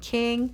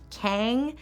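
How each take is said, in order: First: The vowel is a short i sound. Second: The vowel is a short a sound. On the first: "with a short I vowel" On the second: "with an A sound"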